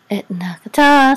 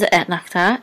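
First: Sung, rising to a loud held note; chanted trope. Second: Said in the usual way. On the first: Shown as a demonstration. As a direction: chant the trope name, holding the ending.

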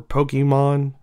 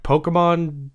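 First: Pokemon said POH-kee-mon; ee pronunciation. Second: Pokemon said POH-kuh-mon; schwa pronunciation. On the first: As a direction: say Pokemon with an "ee" in the middle. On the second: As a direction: say Pokemon with an "uh" in the middle. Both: Shown as a demonstration. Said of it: "however you like to pronounce Pokemon".

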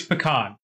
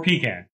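First: "pecan" said puh-KAHN, short first vowel, long AH stressed; "pecan" with stress on the second syllable, KAHN. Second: "pecan" said PEE-can, long EE first, short flat can; "pecan" with a long EE in the first syllable. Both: Shown as a demonstration. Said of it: "It's pecan or pecan, whatever you wanna call it".

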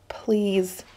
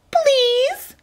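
First: Soft, tight-throated plea; whiny plea. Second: Very high squeaky mimicry; mock the plea in a drawn-out squeak. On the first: Acted. Cornered kid begging bullies, small and whiny. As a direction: plead softly through a clenched throat. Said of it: "My voice squeaked through my tight and clenching throat, sounded high and whiny". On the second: Bully imitating the victim's plea, squeaky and mocking. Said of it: "the kid said in a squeaky voice, mocking me".

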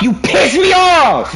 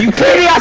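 First: Angry shout. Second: Yelled harder, higher; louder angry shout. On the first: Repeated angry line. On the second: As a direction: bark it louder the second time. Repeated louder. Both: Real, not acted.

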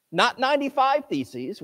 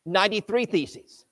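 First: Ninety-five lifted high and ending on a rise; ninety-five pitched up, as if questioning it; stress on ninety-five. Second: Ninety-three given clear, deliberate weight; stress on ninety-three. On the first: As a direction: contrast ninety-five against the correct number. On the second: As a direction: lean on ninety-three to correct the number. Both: Shown as a demonstration.

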